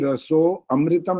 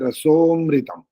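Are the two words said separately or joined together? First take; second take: separately; joined. First: The words are said apart as raso amritam. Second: The words are merged into one: rasomritam. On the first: The speaker calls it wrong. "नहीं बोलना होता" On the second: The speaker calls it right. "बोलने के समय में बोलना होता है"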